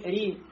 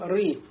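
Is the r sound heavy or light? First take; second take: light; heavy. First: The r is light, with a bright front vowel. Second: The r is heavy, with a deep hollow vowel. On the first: The speaker calls it right. "а говорим ри" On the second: The speaker calls it wrong. "не говорим ры"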